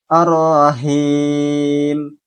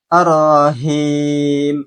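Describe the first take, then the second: No difference in how they are said.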